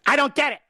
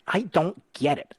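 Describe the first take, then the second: First: Jumps much higher and louder in a hammed-up whine; mock exasperation. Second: Said in the usual way. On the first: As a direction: play it as a joke of being fed up, high and loud. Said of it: "Oh, just kidding". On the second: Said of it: "repeated, second one exaggerated".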